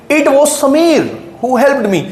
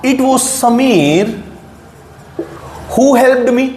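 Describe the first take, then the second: First: Slow, stressing was; emphatic stress. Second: Slow, stressing समीर; emphatic stress. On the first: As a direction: lean on was. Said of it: "ध्यान से देखो sentence को". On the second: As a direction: land hard on समीर. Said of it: "जोर देकर बोलना है". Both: Shown as a demonstration.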